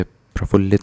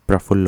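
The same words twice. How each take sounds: First: प्रफुल्लित with an added "it" ending; wrong form. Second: प्रफुल्ल ending on the l sound; correct form. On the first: Teacher rejecting the longer word, प्रफुल्लित ending in "lit". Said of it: "नहीं होता". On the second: Teacher correcting students, प्रफुल्ल ending at "phull". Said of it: "प्रफुल्ल होता है". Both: Shown as a demonstration.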